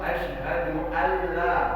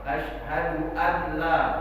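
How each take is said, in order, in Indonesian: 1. Nun dilebur ke dalam lam yang mengikutinya. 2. Nun dibaca jelas sebelum lam. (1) "Nunnya tidak dibaca tapi langsung membaca huruf lam" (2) "Tapi dibaca izhar"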